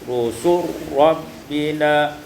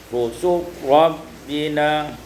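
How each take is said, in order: The two takes are said the same way.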